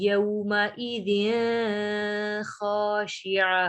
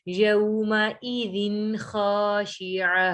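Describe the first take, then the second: First: The n sound before kh is hidden, nasalized. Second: The n sound before kh is pronounced clearly. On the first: The speaker calls it wrong. "यहाँ पे हमने ऐसे नहीं पढ़ना" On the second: The speaker calls it right. "दिन जाहिर करना है हमने"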